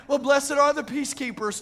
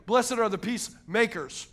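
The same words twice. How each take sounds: First: Lightly mimicking a mistaken believer; mock misquote. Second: "peacemakers" split, with weight on "makers"; pointed verse quote. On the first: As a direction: toss out "peacekeepers" as the wrong reading, a little raised. Mimicking those who misquote verse. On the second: Shown as a demonstration. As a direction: land firmly on the "makers" of "peacemakers". Correct verse, set against misquote.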